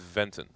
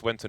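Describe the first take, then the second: First: The name begins with a V sound. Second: The name begins with a W sound.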